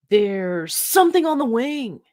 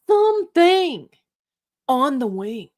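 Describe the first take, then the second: First: High, dramatic Shatner line; William Shatner impression. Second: "Something" slow, much higher and louder, then "on the wing" drops; stretched Shatner emphasis. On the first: Host doing Shatner spotting the creature, hammed-up. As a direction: ham up the horror reveal. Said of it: "my best William Shatner". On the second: Pretend. Host doing a terrible Shatner, wildly stretching the word Something. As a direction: drag out "Something" in rising horror, then land "on the wing". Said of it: "my terrible William Shatner impression".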